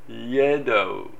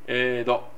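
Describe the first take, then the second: First: The word begins with a y glide before e. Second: The word begins directly with the vowel e. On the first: "最初にイというY というか…イエっていうのが入ってしまう" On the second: "いきなり母音から入る、えという音から入る"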